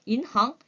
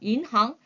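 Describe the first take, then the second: The two takes are said the same way.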